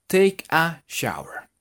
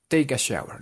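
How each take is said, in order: First: Slow demo. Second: Said in the usual way. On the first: Shown as a demonstration. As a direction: Take a shower drawn out word by word, slowly. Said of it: "slow teaching demo". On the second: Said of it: "normal speed take".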